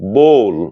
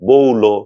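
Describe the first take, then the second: First: The word ends on a consonant, no final vowel. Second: The word ends with an added final o vowel. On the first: The speaker calls it right. "এগুলো কিন্তু ব্যতিক্রম" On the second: The speaker calls it wrong. "এমন হবে না"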